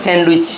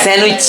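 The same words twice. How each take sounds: First: "স্যান্ডউইচ" with the D pronounced, "sand-wich"; sounded D. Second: "স্যান্ডউইচ" said as "san-wich", no D; silent D. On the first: Teacher showing students the mistaken sandwich, D sounded. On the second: Teacher showing students how to say sandwich, silent D. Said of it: "not স্যান্ডউইচ". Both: Shown as a demonstration.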